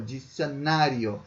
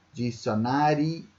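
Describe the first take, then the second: First: Dicionário ending in io as one glide; joined diphthong. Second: Dicionário with the final i and o pulled apart; split vowels. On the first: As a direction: slowly say dicionário, i and o run together. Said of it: "eles formam um ditongo e não se separam". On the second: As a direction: slowly break Dicionário between i and o. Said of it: "porque você separou a sílaba aqui no i e no o". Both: Shown as a demonstration.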